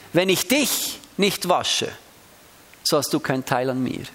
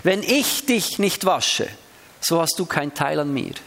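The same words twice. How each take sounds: First: Dich slowed and weighted, line falling off; stress on dich. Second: Ich slowed and weighted, rest falling away; stress on ich. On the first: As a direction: Wenn ich DICH nicht wasche, pointed at you. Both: Shown as a demonstration. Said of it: "Ich kann es ganz unterschiedlich betonen".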